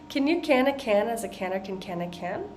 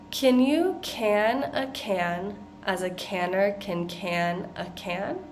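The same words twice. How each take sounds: First: It is said at a fast pace. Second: It is said at a slow pace.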